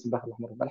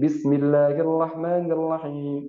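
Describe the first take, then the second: First: It is recited quickly. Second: It is recited at a medium pace. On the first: It is used when reciting during a group supplication. "kita agak cepat bacanya" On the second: It is the standard pace used when leading prayer. "itu tartil eh, sedang standar"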